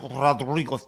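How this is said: The name is said with Spanish-style pronunciation. "pronounce his name properly and put the right accent on it"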